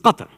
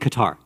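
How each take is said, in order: First: The name is pronounced the Arabic way. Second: The name is pronounced in an anglicized way. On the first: The speaker calls it right. "It's Qatar, okay? We know how to speak Arabic" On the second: The speaker calls it wrong. "Please stop saying Qatar"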